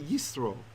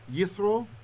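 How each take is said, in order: First: The middle consonant is an s sound. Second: The middle consonant is a th sound. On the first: "When there's no dot, we'd say yisro" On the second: This follows the ancient Hebrew pronunciation. "you might notice I'm pronouncing it as a th"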